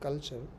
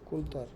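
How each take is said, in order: First: The middle consonant is a ch sound. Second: The middle consonant is a plain t sound. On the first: This is how English says it. "In English it is culture" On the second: This is how some other languages say it. "in some languages they pronounce it like that"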